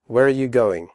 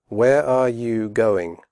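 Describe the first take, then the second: First: Fast, are blended into you; quick natural question; quickly. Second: Slow with full are; careful slow question; slowly. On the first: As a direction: run it together quickly. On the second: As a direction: say each word clearly, slowly. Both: Shown as a demonstration. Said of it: "first slowly and then quickly".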